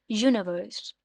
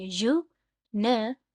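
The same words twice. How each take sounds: First: Said in the usual way. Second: "universe" very slow, यू, नि, verse; syllable by syllable. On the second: Shown as a demonstration. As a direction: leave gaps between the three syllables of "universe". ("Universe" तीन टुकड़ों में, रुक-रुककर) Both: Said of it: "इनको टुकड़ों में बांटेंगे".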